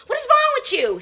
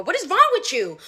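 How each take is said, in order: First: Much higher, exasperated repeat; higher outraged. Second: Said in the usual way. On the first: Retold or imitated. Repeating herself to the customer, higher and outraged. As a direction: push it up in disbelief.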